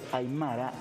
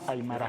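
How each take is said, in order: First: The stress is on the middle syllable. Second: The stress is not on the middle syllable. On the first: The speaker calls it right. "Siempre va a recaer en la penúltima sílaba de la palabra... se dice aymara" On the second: The speaker calls it wrong. "y no aymara"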